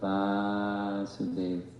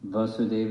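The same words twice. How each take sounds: First: The first A vowel is long. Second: The first A vowel is short. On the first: The name refers to the son. "the son is with a long A" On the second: The name refers to the father. "father is with a short A"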